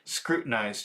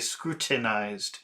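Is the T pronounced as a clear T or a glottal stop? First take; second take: glottal stop; clear T. First: The T is replaced by a throat catch. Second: The T is a strong, clearly released stop. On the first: "instead of pronouncing a T, I do a little cough" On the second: "they will pronounce a very strong T"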